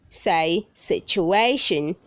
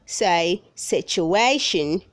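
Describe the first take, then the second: No difference in how they are said.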